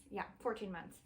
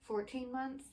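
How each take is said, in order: First: "fourteen months" settled, falling on "fourteen"; "Yeah, fourteen months." said certain, with the pitch dropping at the end; confident confirmation. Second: "Fourteen months?" asked unsure, pitch rising on "months"; "Fourteen months?" as a doubtful question, voice going up at the end; questioning rise. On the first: Confirms child's age. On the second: Unsure asking child's age. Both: Real, not acted.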